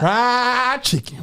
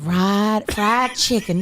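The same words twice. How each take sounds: First: Slow drawled Southern fried chicken; exaggerated Southern drawl on the words; southern twang mimic. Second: Southern twang mimic. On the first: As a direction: stretch it out like a Southern wife. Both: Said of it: "she has the southern twang".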